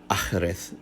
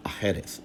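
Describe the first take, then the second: First: "achreth" as ACH-reth, middle vowel dropped; ancient pronunciation. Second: "achereth" as a-KHE-reth in three syllables; fuller pronunciation. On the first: Lecturer proposing an ancient form, two-syllable pronunciation. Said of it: "perhaps in antiquity it was pronounced". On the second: Lecturer contrasting it with the ancient form, three-syllable pronunciation. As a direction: say "achereth" keeping the middle vowel. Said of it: "rather than". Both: Shown as a demonstration.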